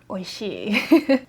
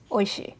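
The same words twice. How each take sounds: First: The final vowel is held long. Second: The final vowel is short. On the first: It means delicious or tasty. "If there was a another I at the end, would mean delicious" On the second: It is just the product name. "this one is just Oishi"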